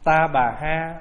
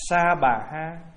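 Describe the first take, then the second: First: The first syllable starts with a t sound. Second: The first syllable starts with an s sound. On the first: It is a slightly altered reading of the original. The speaker calls it wrong. "mình đọc Ta Bà là nó hơi trại chữ" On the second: It is the reading closer to the original. The speaker calls it right. "Nếu mà nói là âm chuẩn nữa đó là Sa Bà Ha"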